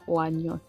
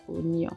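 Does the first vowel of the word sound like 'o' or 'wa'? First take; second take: wa; o. First: The first vowel sounds like 'wa'. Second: The first vowel sounds like 'o'. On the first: The speaker calls it wrong. "c'est pas oignon" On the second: The speaker calls it right. "c'est oignon"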